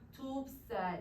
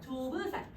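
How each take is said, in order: First: The word has two syllables, with b closing the first. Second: The word has three syllables, with a vowel after b. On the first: This is the easier form that came later. "좁쌀 이렇게 발음하는 게 훨씬 더 편하잖아" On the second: This is the older form, with both consonants pronounced. "조브살 이렇게 발음을 했을 거야"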